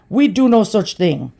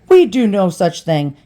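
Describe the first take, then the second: First: It is said in a heavy Indian accent. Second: It is said in a plain, unaccented voice. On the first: "And a heavy, thick Indian accent" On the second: "They didn't say it like that"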